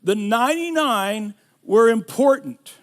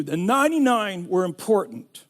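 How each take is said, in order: First: Were leaned on, louder, falling; stress on were. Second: "ninety-nine" carries the weight, falling; stress on ninety-nine. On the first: Preacher stressing "were" to his congregation. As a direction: lean into "were" in "The ninety-nine were important". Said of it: "Write this down". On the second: Pastor hammering the point home, stress on "ninety-nine". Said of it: "I want you to get this". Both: Shown as a demonstration.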